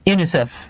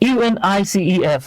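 First: It is said as one single word. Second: It is spelled out letter by letter. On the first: The speaker calls it right. "ওয়ার্ডের মতো করে উচ্চারণ করেন" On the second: The speaker calls it wrong. "আপনি কিন্তু কখনোই বলেন না"

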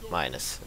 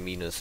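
First: The word is pronounced with English vowels. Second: The word is pronounced with German vowels. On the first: The speaker calls it wrong. "not minus" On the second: The speaker calls it right. "In Germany you say minus"

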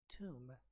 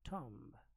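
First: The vowel is a long 'oo' sound, like in 'room'. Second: The vowel is a short 'o' sound, like in 'Tom'. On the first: The speaker calls it right. "this word is pronounced tomb" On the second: The speaker calls it wrong. "not tomb"

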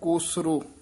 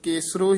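First: The first vowel is pronounced as o. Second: The first vowel is pronounced as e. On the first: The speaker calls it right. "ध्यान नाल उच्चारण करना है" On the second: The speaker calls it wrong. "कई पाठी सिंह केसरो ही कह जाते हैं"

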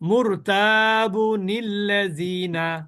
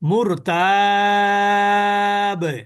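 First: The word runs straight into the next word. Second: The word stops short with a final consonant. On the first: The reader joins this word to the next. "যদি আপনি দুটো মিলিয়ে পড়েন তাহলে কিভাবে পড়বেন?" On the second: The reader pauses at this word. "যখন থামবেন তখন কিভাবে পড়বেন তাই বলছে মুরতাব"

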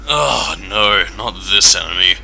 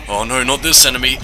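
First: It is said in a flat, weary drone. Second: It is said with alarm and fear. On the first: The enemy has become merely annoying. "with a tired drone in your voice" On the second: The enemy still feels frightening. "instead of going"

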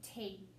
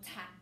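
First: The vowel is a long 'ee' sound. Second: The vowel is a short 'a' sound. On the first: The speaker calls it right. "I think it's tea in that one" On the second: The speaker calls it wrong. "Which one's right?"

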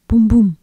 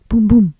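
No difference in how they are said.

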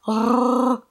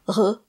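First: The R is rolled with a trill. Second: The R is a soft breathy throat sound. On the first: The speaker calls it wrong. "you don't roll it or trill it, like rrr" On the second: The speaker calls it right. "It's more like an H sound"

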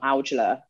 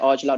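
First: The name is said with an English pronunciation. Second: The name is said with a Punjabi pronunciation. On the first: This is how people outside the family say it. "not Aujla. Which is what people would say" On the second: This is how it is said in the family's language. "in Punjabi would say Aujla"

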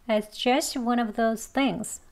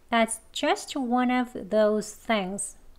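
First: The sentence is spoken quickly with light sounds. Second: The sentence is spoken slowly, every sound clear. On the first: "이번엔 빨리 합니다" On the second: "천천히 두 번 할게요"

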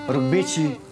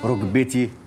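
First: The t sound is followed by a sh hiss. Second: The t sound is clean with no hiss. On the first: The speaker calls it wrong. "تبطلي تحشي حرف الشين اللي في كلامك ده. يعني ما تقوليش" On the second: The speaker calls it right. "تقولي"

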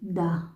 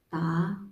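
First: The word begins with a voiced d sound. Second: The word begins with a voiceless t sound. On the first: This is how it is read from the spelling. "but we pronounce it da" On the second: This is how native speakers say it. "yung letter D dito nagiging T"

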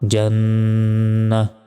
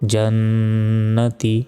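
First: The word ends with an h sound. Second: The word ends with a ti sound. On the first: The reading stops at this word. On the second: The reading continues without stopping.

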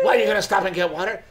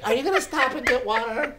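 First: It is said in an annoyed, accusing tone. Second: It is said sweetly, with a smile.

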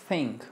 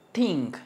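First: It starts with a soft tongue-teeth th sound. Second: It starts with a hard t sound. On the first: The speaker calls it right. "sino think. Tenemos que pronunciar muy suave juntando nuestra lengua con los dientes" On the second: The speaker calls it wrong. "no decimos think"

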